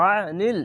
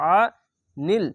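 First: আনিল with thick আইন; heavy আইন in আনিল; throaty ain. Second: আনিল with a thick আইন, not like alif; thick throaty আনিল; squeezed-throat ain. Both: Shown as a demonstration. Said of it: "আইনটিকে মোটা করে গলা চিপে পড়বেন".

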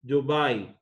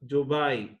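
The two takes are said the same way.

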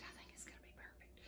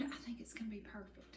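First: Barely there whisper, fast; fast faint whisper. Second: Soft confiding whisper. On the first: Cook repeating the promise to viewers, faint whisper. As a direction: hush it almost to nothing. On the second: Cook confiding in viewers about the cobbler, whispering. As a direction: breathe it like good news. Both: Real, not acted.

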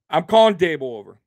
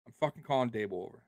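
First: Laughing at his own idea of calling Daboll over. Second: Much softer and faster, lower pitch; muttered repeat. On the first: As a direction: say it through a laugh, louder. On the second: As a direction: repeat it under his breath, quick. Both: Real, not acted.

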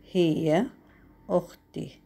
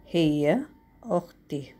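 Both takes have the same delivery.

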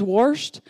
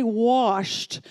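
First: WASHED as "worshed", with an r; "worshed" for washed, family twang; Southern washed. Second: WASHED as "wosht", no r; carefully corrected "wahsht" for washed; standard washed. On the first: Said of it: "it says "washed," and that's how my family always says it". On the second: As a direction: say washed with a long open vowel, no r. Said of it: "I've gotta actually say". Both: Shown as a demonstration.

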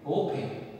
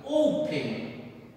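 First: Said in the usual way. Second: OOO-pen, first syllable drawn out slowly; stress on first syllable. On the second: Shown as a demonstration. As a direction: open with a long, strong o. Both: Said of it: "la mayor fuerza de voz está acá".

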